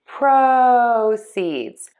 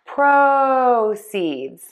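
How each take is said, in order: First: The stress falls on the first syllable. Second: The stress falls on the first syllable.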